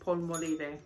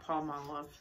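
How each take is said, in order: First: The word is said with a Spanish accent. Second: The word is said with a plain English accent.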